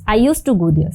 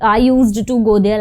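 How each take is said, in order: First: The d in 'used to' is dropped. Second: The d in 'used to' is clearly pronounced. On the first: The speaker calls it right. "Simple है" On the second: The speaker calls it wrong. "यूज्ड टू पूरा आपको pronounce नहीं करना है"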